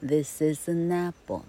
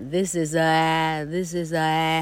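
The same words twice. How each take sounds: First: "this is an apple" with the N of "an" linked into "apple"; linked right version. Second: Slow, separated "this is a" with a break before the vowel; choppy wrong version. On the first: Teacher showing students the right way, smoothly linked. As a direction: glide "an" into "apple" with no break. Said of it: "这个子音需要跟后面的母音去做连音". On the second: Teacher showing students the wrong way, slow and choppy. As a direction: say "this is a" slowly, stopping short before "apple". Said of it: "那母音是连到一块的". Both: Shown as a demonstration.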